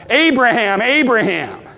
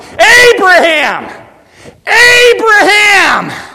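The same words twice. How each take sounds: First: It is said softly, at normal volume. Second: It is shouted at full volume.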